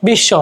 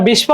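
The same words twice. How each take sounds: First: বিশ্ব said "bish-sho", no b; doubled sh. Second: বিস্ব said "bish-bo", b heard; wrongly sounded b. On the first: Teacher giving what we do say, doubled sh in বিশ্ব. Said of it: "আমরা বলছি কি?". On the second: Teacher showing what we don't say, b sounded in বিস্ব. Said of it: "আমরা বিস্ব বলতেছি না". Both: Shown as a demonstration.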